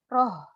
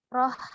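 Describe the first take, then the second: First: The h sound is deep and heavy from low throat. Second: The h sound is light with air released freely. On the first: The speaker calls it wrong. "terlalu ke tenggorokan bawah, nanti jadinya roh, roh, terlalu besar" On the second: The speaker calls it right. "Padahal dia roh, roh. Nah, seperti itu"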